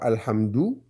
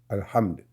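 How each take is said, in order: First: The word ends with a final ou vowel. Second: The word ends on d, without a vowel. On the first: The reading continues without stopping. "bien vrai que ce soit Alhamdou" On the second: The speaker stops after this word. "parce que je m'arrête là"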